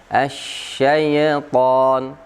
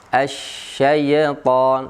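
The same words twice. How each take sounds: No difference in how they are said.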